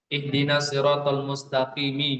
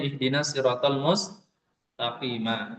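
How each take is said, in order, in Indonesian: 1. Kata terakhir diakhiri dengan vokal 'i'. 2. Kata terakhir diakhiri dengan vokal 'a'. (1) "Mengganti harokat dengan harokat"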